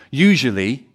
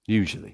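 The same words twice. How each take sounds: First: Usually with a loud rising lift; emphatic usually. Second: Usually dropped soft and falling; quiet afterthought. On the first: Preacher stressing that the wealthy usually trust themselves, Usually loud and rising. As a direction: lean hard on Usually, rising. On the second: Preacher softly hedging his claim, Usually quiet and falling. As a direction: toss off Usually as a qualifier. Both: Shown as a demonstration.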